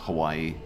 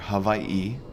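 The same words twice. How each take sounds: First: It is pronounced in the casual, everyday way. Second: It is pronounced in the careful, formal way. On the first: "our default, which is just Hawaii" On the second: "the super proper way of saying it's Hawaii"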